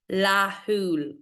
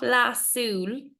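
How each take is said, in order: First: The middle consonant is an h sound. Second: The middle consonant is an s sound. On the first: The speaker calls it right. "láthúil, okay, H" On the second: The speaker calls it wrong. "not lasúil"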